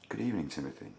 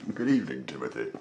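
First: It is said in the reader's own voice. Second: It is said in an American detective's voice.

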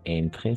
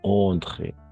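First: The first vowel is a plain 'en' sound. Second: The first vowel is a nasal 'on' sound. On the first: The speaker calls it wrong. "Aquí no va a ser entre" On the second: The speaker calls it right. "sino entre"

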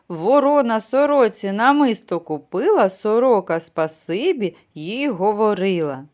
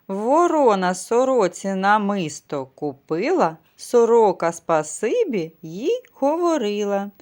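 First: It is said at a faster pace. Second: It is said at a slower pace. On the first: "А тепер спробуємо швидше" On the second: "Повторюйте за мною"

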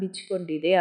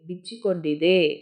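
First: The vowel after 'bich' is dropped. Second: The vowel after 'bich' is fully pronounced.

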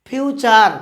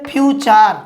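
The two takes are said the same way.

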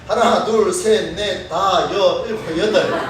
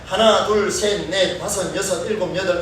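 First: The counting is in a Gyeongsang accent. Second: The counting is in a standard Seoul accent. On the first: "영남 사람들은 뭐라고 이야기하냐면" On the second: "표준 발음 맞지요?"

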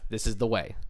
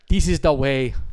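First: It is said in the speaker's plain accent. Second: It is said in a Jamaican accent.

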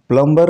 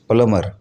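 First: The b is sounded. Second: The b is silent. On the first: The speaker calls it wrong. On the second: The speaker calls it right.

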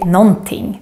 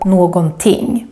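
First: The middle syllable is dropped, giving a shortened word. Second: Every syllable is pronounced fully, as spelled. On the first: This is the normal spoken form. The speaker calls it right. "We normally just say någonting" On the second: This form is rarely heard in speech. The speaker calls it wrong. "This is how we write it, but it's very rare to hear this"

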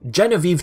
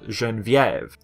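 First: The name is pronounced the English way. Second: The name is pronounced the French way. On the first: "that's the English pronunciation" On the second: "If you want to go with the French one, it's pronounced"

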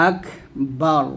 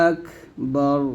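The two takes are said the same way.

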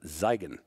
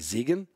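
First: The first vowel sounds like 'eye'. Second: The first vowel sounds like 'ee'. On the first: The speaker calls it right. "but it's" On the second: The speaker calls it wrong. "it looks like it would be"

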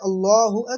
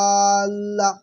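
First: The first vowel is kept short. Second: The first vowel is drawn out long. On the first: The speaker calls it right. "আসল উচ্চারণ হচ্ছে আল্লাহু আকবার" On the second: The speaker calls it wrong. "আল্লাহের আয় টান দিয়ে ফেলি"

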